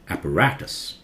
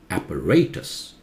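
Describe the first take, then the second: First: It is said with an American pronunciation. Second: It is said with a British pronunciation. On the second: "British is apparatus"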